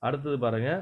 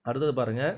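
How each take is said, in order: No difference in how they are said.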